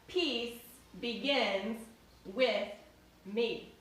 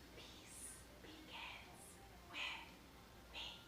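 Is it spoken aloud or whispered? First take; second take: aloud; whispered. First: It is spoken aloud in a full voice. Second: It is whispered without full voice.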